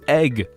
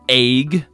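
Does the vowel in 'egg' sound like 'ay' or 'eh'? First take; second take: eh; ay. First: The vowel sounds like 'eh', as in 'bed'. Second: The vowel sounds like 'ay', as in 'aig'. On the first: The speaker calls it right. "It's egg" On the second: The speaker calls it wrong. "they pronounce it like A Y G. Like it's not fucking egg"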